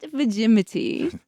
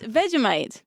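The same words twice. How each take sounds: First: The word is said like Yosemite. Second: The word ends in 'mite', like 'bite'. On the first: The speaker calls it wrong. "not Vegemite" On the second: The speaker calls it right. "So it's Vegemite"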